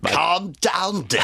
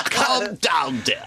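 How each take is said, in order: First: Higher put-on voice of a bossy old director; Michael Winner. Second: Michael Winner shouted. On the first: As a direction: purr it like a patronising film director. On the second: Retold or imitated. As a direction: bark it out like a patronising director. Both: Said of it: "a Michael Winner impression".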